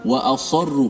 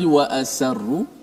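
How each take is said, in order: First: The s sound is heavy and thick. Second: The s sound is light and thin. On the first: The speaker calls it right. "Sad itu wa asarru, kalau tebal" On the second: The speaker calls it wrong. "kalau nipiskan sad wa asarru jadi wa asarru"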